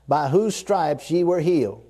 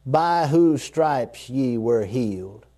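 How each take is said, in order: First: Said in the usual way. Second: Hushed slow reread of the promise; slow, settling repeat. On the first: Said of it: "Now I'm gonna read it slow". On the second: Shown as a demonstration. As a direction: lower and slow, letting each word land. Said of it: "Let that settle".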